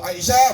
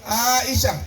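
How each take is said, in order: First: The first vowel is short. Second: The first vowel is long. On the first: It is the local woman's name. "kalau Aisyah berarti Montonompo" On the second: It is the name of the Prophet's wife. "panjang awalnya"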